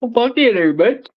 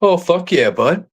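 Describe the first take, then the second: First: Much higher, sing-song Bubbles voice; Bubbles impression. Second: A hint of Bubbles, lightly voiced; Bubbles impression. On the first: Showing off to friends, a higher Bubbles voice. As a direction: pitch way up into a cartoonish Bubbles. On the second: Joking with friends, a light Bubbles voice. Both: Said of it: "You remind me of Bubbles".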